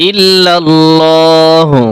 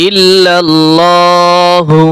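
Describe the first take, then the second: No difference in how they are said.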